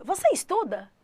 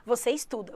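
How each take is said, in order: First: "Você estuda" pitched high as a question; question intonation. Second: Said in the usual way. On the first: Shown as a demonstration. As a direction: make "estuda" ask through melody alone, high then falling. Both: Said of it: "colocar só a entonação".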